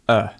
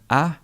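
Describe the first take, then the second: First: The vowel is a short, weak schwa. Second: The vowel is a full, stressed vowel. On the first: The speaker calls it right. "We would say a" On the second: The speaker calls it wrong. "Rather than a"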